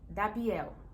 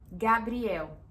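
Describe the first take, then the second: First: The name begins with a D sound. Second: The name begins with a G sound. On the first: This is how the child used to say it. The speaker calls it wrong. "que era Dabri, Dabiel" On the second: The child can now say it correctly. The speaker calls it right. "conseguiu falar"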